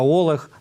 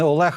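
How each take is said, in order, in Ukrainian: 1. Ім'я вимовляється з галицьким діалектним наголосом. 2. Ім'я вимовляється зі стандартним наголосом. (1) "галицький діалектизм" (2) "в нас не Олег"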